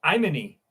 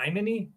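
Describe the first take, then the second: First: Imani said as "eye-MAH-nee", falling; name tried out. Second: Imani said as "ih-MAH-nee", short "ih" start, rising, softer; name retried as a question. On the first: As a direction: Imani with a long "eye" start, settled. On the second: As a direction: Imani asked unsure with a short "ih". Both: Shown as a demonstration. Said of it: "Did I say that right?".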